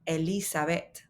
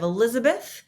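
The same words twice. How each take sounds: First: The name is said with Spanish sounds. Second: The name is said with English sounds. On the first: The speaker calls it right. "this is Elizabeth" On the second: The speaker calls it wrong. "Instead of Elizabeth"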